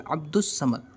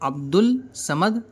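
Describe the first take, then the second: First: The L merges into a doubled S sound. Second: The article keeps its L sound before Samad. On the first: The speaker calls it right. "बल्कि अब्दुस Samad" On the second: The speaker calls it wrong. "अब्दुल समद नहीं पढ़ेंगे"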